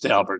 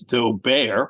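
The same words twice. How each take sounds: First: It uses the name owner's own pronunciation. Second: It uses a snobbish pronunciation of the name. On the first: The speaker calls it right. "Mister Daubert says his name is Daubert" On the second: The speaker calls it wrong. "or even by some snobs as Daubert"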